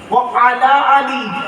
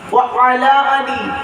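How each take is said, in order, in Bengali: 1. শব্দগুলো আলাদা আলাদা এবং 'i' ধ্বনিতে শেষ হয়। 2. শব্দগুলো আলাদা আলাদা এবং 'i' ধ্বনিতে শেষ হয়।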